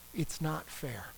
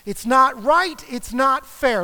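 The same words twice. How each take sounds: First: Softly, hurt and low; quiet hurt complaint. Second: A touch louder, protesting; mild indignant protest. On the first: Griever admitting the loss: quiet, hurt complaint. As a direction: murmur it like a grievance you've held inside. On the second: Griever voicing anger at the loss: mild indignant protest. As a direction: push back like something unjust happened. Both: Pretend. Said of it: "you might actually get angry".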